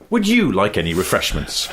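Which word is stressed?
you. The stress falls on the word "you". "moving the emphasis down the sentence"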